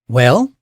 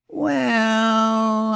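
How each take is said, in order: First: It is said in an impatient, urging tone. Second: It is said in a doubtful, skeptical tone. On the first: The listener should hurry up and speak. "that means spit it out" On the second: The speaker is unsure about the claim. "I don't know about that"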